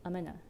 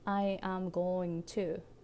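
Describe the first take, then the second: First: The words blend into one short reduced form. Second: Every word is said fully and separately.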